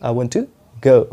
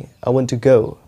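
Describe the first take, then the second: The two takes are said the same way.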